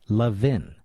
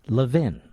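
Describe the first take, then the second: Both takes have the same delivery.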